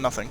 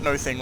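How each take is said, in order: First: It sounds like one word, stressed at first. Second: It sounds like two separate stressed words. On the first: The speaker calls it right. "rather than nothing" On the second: The speaker calls it wrong. "A weird intonation on my part, no thing"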